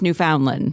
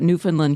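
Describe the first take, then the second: First: It uses the Pennsylvania pronunciation of the name. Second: It uses the Canadian pronunciation of the name. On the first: This is how the name is said for the place in Pennsylvania. "here it's Newfoundland" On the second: This is how the name is said for the place in Canada. "you always talk about Newfoundland, Canada"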